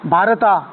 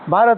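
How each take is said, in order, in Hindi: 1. शब्द के अंत में एक अतिरिक्त 'a' स्वर जुड़ता है। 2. शब्द अंतिम व्यंजन पर समाप्त होता है। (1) "भारता क्या होता है?" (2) "भारत होता है।"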